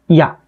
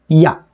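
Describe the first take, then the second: First: A very short 'i' glides straight into 'a'. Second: A very short 'i' glides straight into 'a'.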